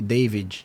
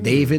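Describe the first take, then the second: First: The name is said with Brazilian pronunciation. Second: The name is said with English pronunciation.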